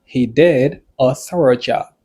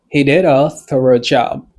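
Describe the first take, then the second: First: Slow, spaced-out example sentence; slower model. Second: Said in the usual way. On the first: Shown as a demonstration. Teacher repeating an example for learners, slowly and spaced. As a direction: say it deliberately, separating the first words.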